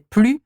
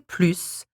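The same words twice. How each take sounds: First: The word ends without any S sound. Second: The word ends with an audible S sound. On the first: It means no more. "if it is pronounced without it and without it and you say plus" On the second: It means more. "if you pronounce it with an S and you say plus"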